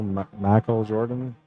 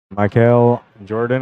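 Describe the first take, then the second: First: "Michael" as MAH-kel with a flat open first vowel, "Jordan" with a soft SH start; accented name. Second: Said in the usual way. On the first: Shown as a demonstration. Streamer guessing how a viewer's name is pronounced, tentative foreign-style "Michael". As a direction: try "Michael Jordan" as MAH-kel SHOR-dan, slow and unsure. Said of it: "With an accent?". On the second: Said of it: "or is it Michael".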